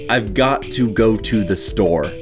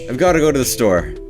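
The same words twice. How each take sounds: First: Every syllable is clearly and separately enunciated. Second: The words are slurred and run together casually. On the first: "I just did a lovely job speaking that" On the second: "in a normal setting it would probably sound more like"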